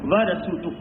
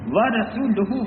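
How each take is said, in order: First: The final vowel is dropped at the stop. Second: The final vowel is pronounced in full. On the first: The reciter stops after this word. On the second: The recitation continues without stopping.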